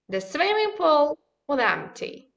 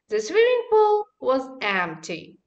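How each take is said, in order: First: Function words like 'was' are said reduced. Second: Function words like 'was' are said fully. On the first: "Let's read it in a weekend form" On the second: "now I'm going to read in a strong form"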